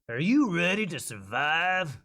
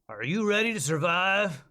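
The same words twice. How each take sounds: First: It is spoken at a slow, drawn-out pace. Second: It is spoken at a quicker, tighter pace. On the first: "You think it was a little little slow?" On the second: "deep and gritty, but not so slow"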